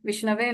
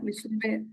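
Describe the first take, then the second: First: The vowel after 'Vishn' is an 'a' sound. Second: The vowel after 'Vishn' is a 'u' sound. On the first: The speaker calls it right. "விஷ்ணவே நமக அப்படின்னு சொல்லணும்" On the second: The speaker calls it wrong. "நிறைய பேர் நம்ம என்ன பண்ணுவோம்னா விஷ்ணுவே விஷ்ணுவேன்னு சொல்லுவோம். So அது வந்து சொல்லாம"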